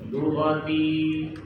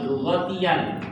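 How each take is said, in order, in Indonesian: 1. Kata itu berakhir dengan vokal panjang di akhir. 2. Kata itu diakhiri suku kata -yan yang ditambahkan. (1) "kalau kita baca waqaf jadi panjang" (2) "Kalau dibaca wasal"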